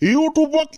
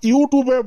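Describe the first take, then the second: First: The word ends on the consonant b. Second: The word ends with an added vowel. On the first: The speaker calls it right. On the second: The speaker calls it wrong. "ইউটিউবে বনালা"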